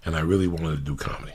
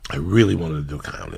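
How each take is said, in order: First: Said in the usual way. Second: "really" pushed louder, rising; emphatic repeat. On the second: Real, not acted. Insisting to the host he wanted comedy, emphatic "really". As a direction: lean hard on "really".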